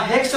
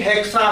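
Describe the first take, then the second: First: Said in the usual way. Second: हेक्सा ending in an open "saa"; added final A. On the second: Shown as a demonstration. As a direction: sound the last vowel of हेक्सा, hek-saa. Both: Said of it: "हेक्स नहीं".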